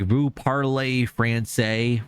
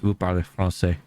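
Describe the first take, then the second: First: It is said with an English accent. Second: It is said with a French accent.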